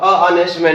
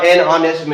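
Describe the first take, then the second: First: "a honest man" with a plain "a" before "honest", the wrong form; "a honest man", said as the mistake to avoid; wrong article. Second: "an honest man" with a silent h, said as "an anest man"; "an honest man", the h left silent and linked to "an"; correct article. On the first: Teacher warning students against saying "a honest man", a plain "a". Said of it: "नहीं बोलना क्योंकि यहाँ पर एच जो है वो silent है". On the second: Teacher showing students the right form, "an honest man" with no h sound. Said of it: "a honest man नहीं बोलना क्योंकि यहाँ पर एच जो है वो साइलेंट है".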